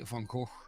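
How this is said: The name is said with an English-style G sound. This is how English speakers say it. "we would say Van Gogh"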